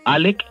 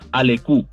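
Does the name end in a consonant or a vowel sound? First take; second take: consonant; vowel. First: The name ends with a consonant sound. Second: The name ends with an added vowel sound. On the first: This is how the name is really pronounced. The speaker calls it right. "pero realmente se pronuncia así como lo estás diciendo" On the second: This is how the spelling might suggest reading it. The speaker calls it wrong. "como si se dijera Alecu"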